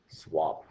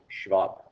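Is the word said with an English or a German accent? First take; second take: English; German. First: The word is said with an English accent. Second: The word is said with a German accent.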